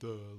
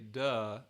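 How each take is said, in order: First: It is said in a dopey, dull, low voice. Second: It is said in a plain, normal voice. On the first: "with that really dopey, really stupid sound" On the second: "the larynx doesn't move"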